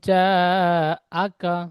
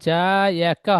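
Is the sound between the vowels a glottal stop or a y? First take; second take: glottal stop; y. First: A glottal stop separates the two vowels. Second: A y sound links the two vowels. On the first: The speaker calls it right. "এই হামজা যাবার আ" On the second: The speaker calls it wrong. "হবে না"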